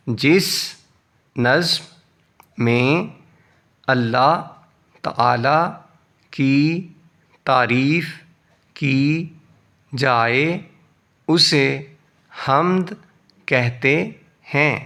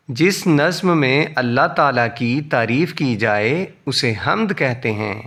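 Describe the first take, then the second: First: "جس نظم میں" and onward, a pause after every word. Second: "جس نظم میں" run together at a brisk pace; fluent reading. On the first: Teacher reads sentence word by word. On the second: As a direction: join the whole sentence from "جس" without word gaps. Same sentence read fluently. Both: Shown as a demonstration.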